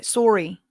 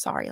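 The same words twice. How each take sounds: First: "Sorry" said Canadian-style, as SORE-ee; Canadian accent. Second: Said in the usual way. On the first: Shown as a demonstration. Streamer showing how to sound Canadian, "Sorry" as SORE-ee. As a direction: round the first vowel of "Sorry" to a Canadian "oh". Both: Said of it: "if you pronounce sorry like that".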